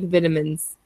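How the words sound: It is said with a British pronunciation. "in British English, it's more like vitamins"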